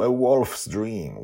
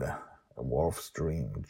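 First: Said in the usual way. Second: A Wolf's Dream said slowly and softer, each word apart; slow clear title. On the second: Shown as a demonstration. Narrator repeats the book title slowly for listeners. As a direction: spell out Wolf's carefully. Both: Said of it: "Wolf with an E at the end".

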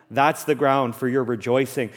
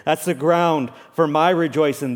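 First: Said in the usual way. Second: "my" leaned on, line lifted a little; stress on MY. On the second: Real, not acted. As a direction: put the weight on "my" to make it personal. My contrasted with your.

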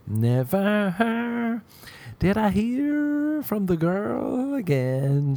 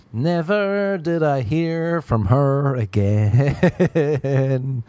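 First: Higher, very slow "Never" stretched out; dramatic high punchline. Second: Slow, drawn-out, loud "Never did I hear"; milk the punchline slowly; dramatic slow punchline. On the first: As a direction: deliver it as a mock tragic line. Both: Acted.

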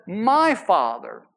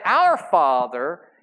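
First: MY punched slow and falling, the right take; stress on MY. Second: OUR drawn out slowly and rising, the wrong take; stress on OUR. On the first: Pastor showing how Jesus spoke of God, slow stress on "My". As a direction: hit "My" in "My Father." slowly with a firm fall. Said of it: "he said". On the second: Pastor showing what Jesus never said, slow stress on "Our". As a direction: lean on "Our" in "Our Father," slowly, with a rising tune. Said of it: "He didn't say". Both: Shown as a demonstration.

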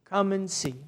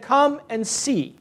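First: "Come and see." said softer, falling away; soft repeat. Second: Slow, drawn-out come and see, a little higher; bishop's invitation. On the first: Bishop repeating his invitation to the visitor, softly. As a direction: let the repeat drop to a soft, gentle close. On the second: Bishop welcoming a stranger at the monastery, slow and inviting. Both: Retold or imitated. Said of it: "He just said".

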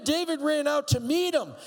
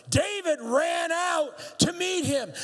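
First: Said in the usual way. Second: "David ran out to meet him" slow and shouted, "meet" punched; emphatic slow shout. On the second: Shown as a demonstration. Pastor repeating verse to congregation, emphatic shout. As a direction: drive home that "meet" with a shout. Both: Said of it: "repeated emphatically".

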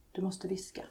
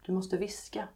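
First: Hushed, softer whisper; whispered warning. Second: Said in the usual way. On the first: A narrator's reading. Laxmi warns the child next door, whispering. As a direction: drop into a whisper to warn.

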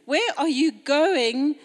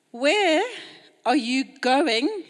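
First: Said in the usual way. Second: Going lifted and stretched, slow; slow question, going rising at the end; stress on going. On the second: Shown as a demonstration. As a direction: lean on going. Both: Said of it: "Emphasize on the word going".

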